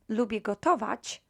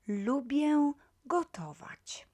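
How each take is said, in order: First: It is quick and the nasal vowel is dropped. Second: It is slow and the nasal vowel is clear. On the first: "if I say it quickly, ... I kind of uh, drop the e" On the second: "If pronounced slowly, you will hear this L nasal pronounced very uh, clearly"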